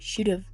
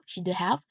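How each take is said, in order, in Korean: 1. 단어들이 줄어들어 서로 붙어서 발음됩니다. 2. 단어들을 온전히 하나씩 따로 발음합니다. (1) "원어민이 보통 should have, should have 이라고 발음합니다" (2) "본인들이 정한 소리로 듣고 말합니다"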